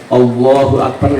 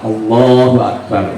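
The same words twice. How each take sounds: First: The voice rises at the end. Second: The voice falls at the end. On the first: It asks whether God is great. The speaker calls it wrong. "Kalau naik bacanya" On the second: It is a statement that God is great. The speaker calls it right. "ini harus betul"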